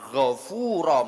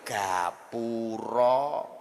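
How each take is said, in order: First: It starts with a throaty gh and has f. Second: It starts with a plain g and has p. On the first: This is the original Arabic word. "arep ngomong ghafura" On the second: This is how a Javanese tongue says it. "metot-metot angel ya gapura"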